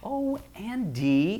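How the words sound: It is spoken low in chest voice. The speaker calls it right. "talk in your chest voice. Say"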